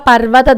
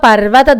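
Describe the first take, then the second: The two takes are said the same way.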